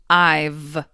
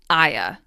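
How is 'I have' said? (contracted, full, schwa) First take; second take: contracted; schwa. First: The word 'have' shrinks to a 'v' sound. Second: The word 'have' becomes a schwa. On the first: The speaker calls it right. "It does change, but to I've" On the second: The speaker calls it wrong. "you don't change I have to I'ya"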